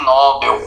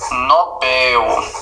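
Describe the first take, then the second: First: The stress is on the first syllable. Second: The stress is on the last syllable. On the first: The speaker calls it wrong. "não é Nobel" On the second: The speaker calls it right. "é Nobel, é oxítona"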